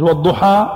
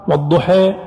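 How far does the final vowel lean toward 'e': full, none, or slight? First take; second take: none; slight. First: The final vowel is an open 'a' sound. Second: The final vowel leans slightly toward 'e'. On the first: "الفتح" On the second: "التقليل"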